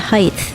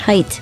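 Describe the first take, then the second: First: The word ends with a th sound. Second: The word ends with a plain t sound. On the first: The speaker calls it wrong. "my parents always said height with a T H" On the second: The speaker calls it right. "There's no T H at the end of that one"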